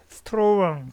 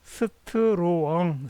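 First: Said in the usual way. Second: "스트로엉" with a slow, rounded o gliding into ung; strong as stro-ung. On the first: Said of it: "스트롱보다는". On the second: Shown as a demonstration. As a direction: stretch "스트로엉" so the vowel opens from o to ung. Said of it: "스트로엉으로 발음하는 게 좋습니다".

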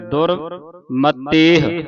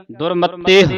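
First: ਦੁਰਮਤੇਹ said slowly with the final ਤੇਹ stretched long; drawn-out reading. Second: ਦੁਰਮਤੇਹ with a short, clipped ਤੇਹ at the end. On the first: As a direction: stretch out ਦੁਰਮਤੇਹ, holding the ending. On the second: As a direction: say ਦੁਰਮਤੇਹ crisply, without stretching the ending. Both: Shown as a demonstration. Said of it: "ਤੇਹ ਲੰਮਾ ਨਹੀਂ ਕਰਨਾ ਇਹਨੂੰ".

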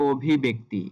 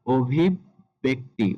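First: "অভিব্যক্তি" as obhi-bekti, run together; ভুল উচ্চারণ. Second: "অভিব্যক্তি" slowly as obhib-bekti; সঠিক উচ্চারণ. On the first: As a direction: say "অভিব্যক্তি" with no catch before b. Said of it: "একটা ভুল আমাদের এখানে থেকে যায়". ("অভিব্যক্তি"-তে ব-এ ধাক্কা ছাড়া) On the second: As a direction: hold a doubled b in "অভিব্যক্তি". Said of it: "সঠিক উচ্চারণ হবে". ("অভিব্যক্তি"-তে ব-এ ধাক্কা) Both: Shown as a demonstration.

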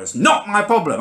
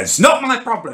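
First: Hammed-up stubborn driver repeating it, pitched high with a laugh; mock him as he digs in; aggressive driver. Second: Mock-aggressive jobsworth, pitched well up; aggressive driver. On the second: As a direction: sneer it like a stubborn driver. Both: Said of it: "He keeps going aggressively now".

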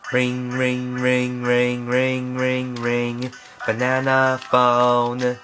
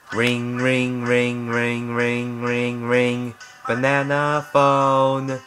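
No difference in how they are said.

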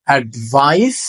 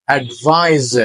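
First: অ্যাডভাইস ending in a sharp s; অ্যাডভাইস, শেষে স ধ্বনি; final s sound. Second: অ্যাডভাইস ending in a buzzing z; অ্যাডভাইস, শেষে জ ধ্বনি; final z sound. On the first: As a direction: say অ্যাডভাইস with a clear hissed s at the end. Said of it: "শেষে সাউন্ডটা কি? স". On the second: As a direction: say অ্যাডভাইস with a voiced z at the end. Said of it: "শেষে সাউন্ডটা কি আসছে? জ". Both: Shown as a demonstration.

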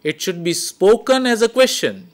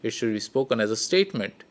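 First: Said high, as if asking; high questioning tone; question intonation. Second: Low matter-of-fact delivery; statement intonation. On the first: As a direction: lift it like a question. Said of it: "If I am putting a question". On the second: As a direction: lower and quicker, flat statement. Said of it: "If I am putting a statement". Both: Shown as a demonstration.

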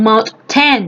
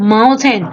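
First: "mountain" broken into two separate words, "mouth" and "ten"; wrong split pronunciation. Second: "mountain" said as one smooth, joined word; careful correct pronunciation. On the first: Teacher showing pupils how not to read mountain, wrong split pronunciation. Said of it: "ไม่ใช". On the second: Teacher showing pupils how to read mountain properly, careful pronunciation. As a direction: pronounce "mountain" carefully, syllables flowing together. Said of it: "อ่านให้ดีนะลูก". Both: Shown as a demonstration.

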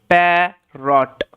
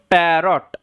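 First: "প্যারট" slowly, split into pa and rot; syllable by syllable. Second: Said in the usual way. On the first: Shown as a demonstration. Teacher closing the parrot drill, word split slowly into syllables. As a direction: stretch "প্যারট" with a break between syllables.

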